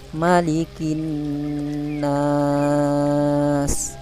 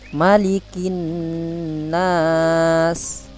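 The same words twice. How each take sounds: First: The long vowel is held for six beats. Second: The long vowel is held for two beats. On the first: "yang ketiga enam harokat" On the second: "Yang pertama baca, Bapak baca dua harokat"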